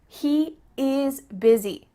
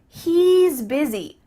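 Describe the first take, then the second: First: The first two words are said separately. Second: The first two words are joined into one.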